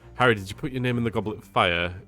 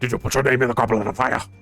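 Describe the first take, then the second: First: It is said calmly and evenly. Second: It is said agitatedly and forcefully.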